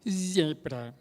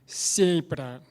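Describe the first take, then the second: First: It begins with a buzzing z sound. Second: It begins with a hissing s sound. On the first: This is how the speaker says it now. The speaker calls it right. "é zebra" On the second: This is how the speaker said it before the implant. The speaker calls it wrong. "Então eu falava antes assim"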